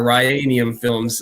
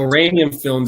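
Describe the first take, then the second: First: The first syllable sounds like 'rye'. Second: The first syllable sounds like 'ran'. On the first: This is how many others say it. The speaker calls it wrong. "a lot of people pronounce it Ryanium Films" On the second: This is the brand's actual name. The speaker calls it right. "so Ranium Films, it's called"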